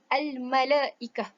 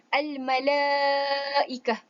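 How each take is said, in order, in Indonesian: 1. Vokal panjang itu dibaca pendek. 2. Vokal panjang itu dibaca panjang. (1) "bukan al-malaikah. Itu ialah salah" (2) "Cara bacaan yang betul ialah al-malaikah"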